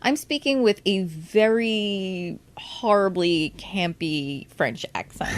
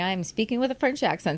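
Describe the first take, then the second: First: VERY HORRIBLY drawn out slowly for emphasis; slow right down on "very horribly campy"; emphatic self-correction. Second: Quick, breezy quoted thought; naive kid's thought. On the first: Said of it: "It's like, no, I'm". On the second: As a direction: rattle it off like a naive kid. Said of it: "go around as a kid thinking". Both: Retold or imitated.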